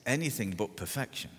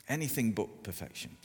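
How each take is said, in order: Both takes have the same delivery.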